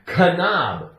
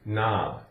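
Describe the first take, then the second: First: The word starts with an audible K sound. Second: The word starts with an N sound, no K. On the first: The speaker calls it wrong. "If you don't pronounce it correctly, you're going to say" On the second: The speaker calls it right. "Take off the K and you have N O B"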